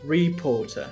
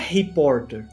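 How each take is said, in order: First: It starts with an English R, final R dropped. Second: It starts with a throaty Portuguese-style R sound. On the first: The speaker calls it right. "Ou no sotaque britânico" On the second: The speaker calls it wrong. "Só que não é reporter"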